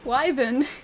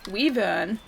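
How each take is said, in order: First: The first syllable sounds like 'why'. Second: The first syllable sounds like 'wee'. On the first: The speaker calls it right. "There's a Y there. You have to pronounce the Y" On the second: The speaker calls it wrong. "Some t- people say we Weavern"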